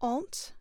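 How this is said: It is said in a British accent. "I'm going to do British"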